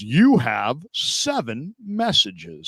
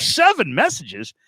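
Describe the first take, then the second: First: Slow, word-by-word machine announcement; automated voicemail voice. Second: Higher, drawn-out disbelief on the number; incredulous reaction. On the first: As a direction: imitate the voicemail robot reading a count. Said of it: "and it goes". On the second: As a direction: react astonished, stretching the words. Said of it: "I'm like". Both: Retold or imitated.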